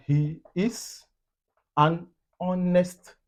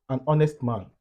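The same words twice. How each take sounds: First: Drawn-out, higher "an honest"; slow example. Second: Said in the usual way. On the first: Shown as a demonstration. Teacher giving learners an example, slow and word by word. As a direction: stretch each word of the example apart.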